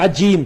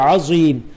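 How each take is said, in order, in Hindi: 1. बीच का व्यंजन 'ज' की आवाज़ है। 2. बीच का व्यंजन 'ज़' की आवाज़ है।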